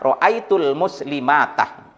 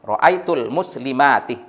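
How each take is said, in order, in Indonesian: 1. Kata terakhir diakhiri dengan vokal 'a'. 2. Kata terakhir diakhiri dengan vokal 'i'.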